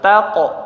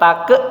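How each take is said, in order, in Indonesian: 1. Huruf q terakhir bergetar dengan vokal seperti 'o'. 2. Huruf q terakhir bergetar dengan vokal seperti 'e'. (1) "tapi taqo" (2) "Jangan jangan jangan berubah jadi e, bukan take"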